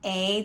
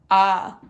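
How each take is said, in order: First: The vowel is a long 'ay' sound. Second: The vowel is a relaxed 'uh' sound. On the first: "This changed from A" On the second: "a schwa"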